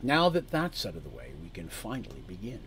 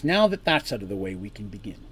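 First: Level, unhurried, fading softer at the end; calm menace, no feeling shown; emotionless cool man. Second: Cold and matter-of-fact; emotionless cool man. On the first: Man lays out terms to the party, emotionless. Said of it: "He's very emotionless". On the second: Man opens the talk to the party, cool and emotionless. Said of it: "So again, he says". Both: Acted.

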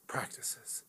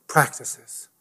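First: "Practices" breathed as a whisper; whispered echo. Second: Said in the usual way. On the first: Shown as a demonstration. Pastor repeating the topic to himself, whispered. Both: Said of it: "I'm touching on so many practices here".

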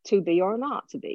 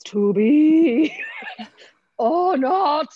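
First: Shakespearean original-pronunciation accent, everyday delivery; earthy original-pronunciation accent, unfussy. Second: Loud, slow, high theatrical declaiming; hammy stage Shakespearean, hugely drawn out; overblown Shakespeare voice. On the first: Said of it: "original pronunciation". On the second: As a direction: stretch "be" out grandly, rising high. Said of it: "rather than there's". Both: Shown as a demonstration.

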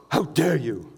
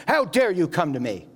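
First: Mock-offended "How dare you", a touch affronted; indignant. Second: A hint of an angry rebuke, only lightly voiced; mildly angry. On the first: Preacher demonstrates the word indignant with a lightly offended retort. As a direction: play it like someone clutching their pearls. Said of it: "indignant is this". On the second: Preacher shows how the translation makes Jesus sound angry with the leper, mildly rebuking. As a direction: brush the man off with mild offence. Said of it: "makes Jesus sound kinda angry". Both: Shown as a demonstration.

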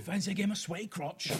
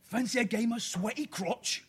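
First: A lighter Cockney repeat. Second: Slow, high, louder Cockney quiz question; a pub quizmaster in put-on Cockney; hammed-up Cockney accent. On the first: Pretend. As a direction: say it again with less Cockney. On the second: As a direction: lay on a thick Cockney accent, slowly. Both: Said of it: "do it in a Cockney accent".

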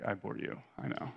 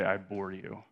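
First: Dry, dropped-voice I bore you, half whispered; a son retelling his mom's sarcastic quip. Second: Said in the usual way. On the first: Retold or imitated. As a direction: throw it off with mock smugness. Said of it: "she'd almost use it sarcastically". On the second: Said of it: "she would often say this phrase".

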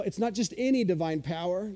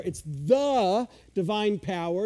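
First: ANY picked out as the contrasting word; stress on any. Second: THE drawn out long and emphatic; stress on the. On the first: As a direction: lean on "any", with a lift after it. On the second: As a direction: stretch "the" as the one and only. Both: Shown as a demonstration. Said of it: "It's a definite article".

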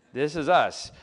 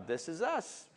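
First: "This is us" said louder with a firm falling close; firm declaration. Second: "this is us" said softly, rising, half to himself; soft aside. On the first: Pastor owning his family's chaos to the congregation, firmly and loudly. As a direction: plant "This is us" firmly like a proud confession. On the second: Pastor admitting his family's chaos, in a soft rising aside. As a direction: let "this is us" slip out soft with a lift at the end. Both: Shown as a demonstration.

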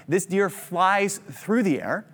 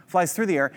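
First: Drawn-out words, rising at the end; slow, vivid storyteller build; slow dramatic telling. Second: Said in the usual way. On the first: Acted. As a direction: stretch it out so they picture the deer flying. Picturing the deer mid-flight.

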